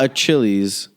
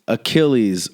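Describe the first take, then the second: First: The 'ch' sounds like the start of 'chair'. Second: The 'ch' sounds like a 'k'. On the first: The speaker calls it wrong. "Not a Chili's" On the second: The speaker calls it right. "it's Achilles"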